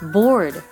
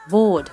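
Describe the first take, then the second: First: The r after the vowel is clearly sounded. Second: The r after the vowel is not sounded. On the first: "交互に北米とイギリス、オーストラリア発音を発音していきます" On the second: "イギリス、オーストラリア発音"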